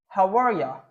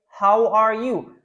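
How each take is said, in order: First: It is said fast, with 'you' reduced to 'ya'. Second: Every word is said fully and clearly.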